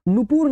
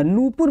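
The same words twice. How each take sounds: First: नूपुर wrongly said with a long second vowel, "nu-poor"; teacher's wrong example, नूपुर as "nupoor"; wrong vowel length. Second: नूपुर with long first vowel, "noo-pur"; teacher's model of नूपुर as "noopur"; correct vowel length. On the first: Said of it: "नहीं होता". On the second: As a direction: stretch the first vowel of नूपुर, keep the second short. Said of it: "ये लिखा जाता है". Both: Shown as a demonstration.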